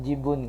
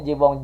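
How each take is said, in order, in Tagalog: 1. Nagtatapos ang salita sa tunog na 'un'. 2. Nagtatapos ang salita sa tunog na 'ong'. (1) "Jibun nga" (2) "Jibong ka kasi ng jibong"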